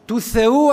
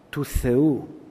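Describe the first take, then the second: First: It is said louder, with a smile. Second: It is said a little more boldly. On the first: The speaker happily believes the claim. "σκάει έτσι αδρά ένα χαμόγελο, ανεβαίνει ο τόνος" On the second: The speaker is gaining confidence in the claim. "Τώρα λίγο πιο θαραλέα"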